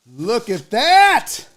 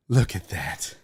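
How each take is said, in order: First: Slow, high-pitched marvelling; drawn-out delighted awe; excited amazement. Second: Low, soft marvelling; quietly stunned by the sight; hushed awe. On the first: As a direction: stretch THAT out, rising high. Repeats it, amazed. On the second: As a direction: say it low, under your breath. First look at the food. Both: Real, not acted.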